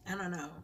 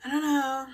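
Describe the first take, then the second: First: I don't know fading soft; trailing off. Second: Said in the usual way. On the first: Real, not acted. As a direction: let I don't know fade out.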